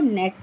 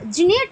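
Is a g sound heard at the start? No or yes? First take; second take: no; yes. First: It starts directly with the n sound. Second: A g sound is pronounced before the n. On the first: The speaker calls it right. "इसको नेट पढ़ा जाता है" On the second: The speaker calls it wrong. "इसको क्या जिनेट पढ़ते हो? नहीं"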